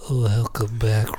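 It is said in a sultry, sexy voice.

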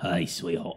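The voice is rough and deep.

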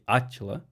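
The name is said the Portuguese way.

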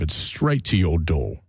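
It is spoken in a regal British-sounding accent.

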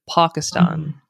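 It is said with a Pakistani pronunciation. The speaker calls it right. "my friends from Pakistan, they say Pakistan"

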